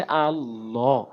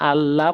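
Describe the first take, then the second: First: আল্লাহ with a full, heavy, rounded ল, said slowly; heavy Allah. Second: আল্লাহ with a light, thin ল as the wrong example; wrong thin Allah. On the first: Quran teacher showing students the correct heavy আল্লাহ. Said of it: "বলতে হবে". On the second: Quran teacher showing students the wrong thin আল্লাহ. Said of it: "লা বলা যাবে না, আল্লাহ বলা যাবে না". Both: Shown as a demonstration.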